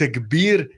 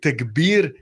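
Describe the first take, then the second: First: It is pronounced with an Arabic accent. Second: It is pronounced with an Arabic accent.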